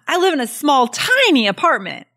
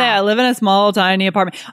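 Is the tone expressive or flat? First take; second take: expressive; flat. First: The words are said in a lively, emphatic tone. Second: The words are said in a flat, even tone. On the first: The speaker calls it right. "tone of voice, the way we deliver that" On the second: The speaker calls it wrong. "You're not going to say"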